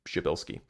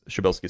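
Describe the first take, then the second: First: The name is said carefully with a light initial stop. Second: The name is said quickly and loosely. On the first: The speaker calls it right. "there's like a little a little like B or P sound at the beginning" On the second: The speaker calls it wrong. "I'm pronouncing it quickly, so it's not quite right"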